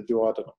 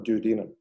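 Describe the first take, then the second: First: "duodenum" said in his adopted accent, stress shifted. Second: Said in the usual way. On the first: Real, not acted. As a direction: say "duodenum" with the foreign-sounding accent he picked up. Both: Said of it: "I don't know why I developed, uh, that accent".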